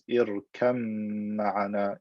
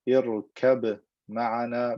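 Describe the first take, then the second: First: The b sound merges into the m. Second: The b sound is kept before m.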